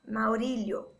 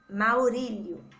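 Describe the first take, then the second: First: It is said fast, the 'li' sounding like 'lh'. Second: It is said slowly with a separate 'li' syllable.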